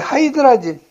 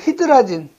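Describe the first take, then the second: First: The first syllable is said as 'high'. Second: The first syllable is said as 'hee'. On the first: "이걸 하이드라진이라고 하는 사람도 있죠" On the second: "히드라진이라고 하는 사람도 있고"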